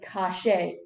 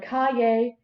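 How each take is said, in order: First: The middle consonant is an sh sound. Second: The middle consonant is a y sound. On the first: "the Y is pronounced with an S H sound" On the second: "instead of calle"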